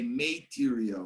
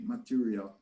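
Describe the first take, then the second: First: The first vowel sounds like the letter A. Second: The first vowel is not the letter-name A. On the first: The speaker calls it wrong. "We don't say material" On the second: The speaker calls it right. "we say material"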